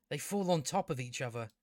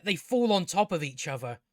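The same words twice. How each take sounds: First: Lower, much softer restatement; deadpan repeat. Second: Said in the usual way. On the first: Real, not acted. Reviewer repeating a silly plot point, low and deadpan. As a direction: drop it down in deadpan disbelief.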